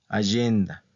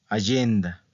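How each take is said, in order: No difference in how they are said.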